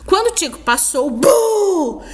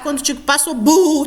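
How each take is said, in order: First: It is read with pauses and an exclamation. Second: It is read straight through without pauses.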